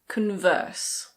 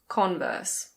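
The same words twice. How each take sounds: First: The stress is on the second syllable. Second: The stress is on the first syllable. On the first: The speaker calls it wrong. "It's not Converse" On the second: The speaker calls it right. "we stress the first syllable"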